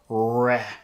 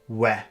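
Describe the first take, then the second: First: The R sound is a clear, strong R. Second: The R sound comes out like a W. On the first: The speaker calls it right. "the air comes up and out" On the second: The speaker calls it wrong. "they would say we"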